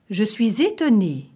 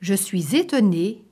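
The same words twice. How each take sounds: First: "étonnée" said with a plain falling close. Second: "étonnée" ends on a rising questioning tune. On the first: Teacher contrasting tunes, "étonnée" falling. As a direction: let "étonnée" drop at the end. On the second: Teacher contrasting tunes, "étonnée" rising. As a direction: lift the end of "étonnée" in wonder. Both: Shown as a demonstration. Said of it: "same phrase said twice".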